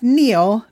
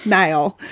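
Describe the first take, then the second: First: "Neil" said like "kneel". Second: "Niall" said like the river Nile. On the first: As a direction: say "Neil" with a long ee. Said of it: "is pronounced Neil, not Niall". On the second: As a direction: say "Niall" with an eye vowel. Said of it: "not Niall". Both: Shown as a demonstration.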